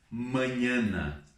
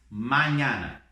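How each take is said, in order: First: The a vowels are closed and nasal. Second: The a vowels are wide open. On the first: The speaker calls it wrong. "Então não vou ler assim" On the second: The speaker calls it right. "Bem aberto lá"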